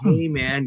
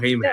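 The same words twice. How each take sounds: First: It is said in a slow, relaxed, mellow tone. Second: It is said in a sharp, angry, forceful tone. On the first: The speaker is easygoing and chill. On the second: The speaker is irritated and confrontational.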